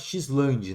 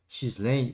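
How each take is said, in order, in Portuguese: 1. O nome é lido com sons do português brasileiro. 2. O nome é lido com sons do inglês. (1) "pra gente que é brasileiro, a gente fala Xland" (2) "que tem um nome em inglês... essa seja a pronúncia correta"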